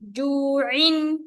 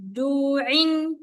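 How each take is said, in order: Both takes have the same delivery.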